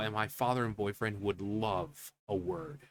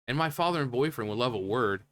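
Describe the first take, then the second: First: It is said in a put-on, imitating voice. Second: It is read in a plain, ordinary voice. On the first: It sounds sweet and harmless. "hearing it come from her, her voice, like, oh" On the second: It comes across as a threat. "if you just read it"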